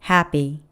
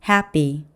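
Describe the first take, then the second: The two takes are said the same way.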